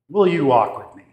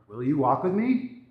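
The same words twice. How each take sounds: First: The voice stays flat at the end. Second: The voice rises at the end.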